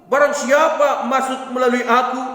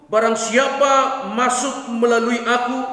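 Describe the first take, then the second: The two takes are said the same way.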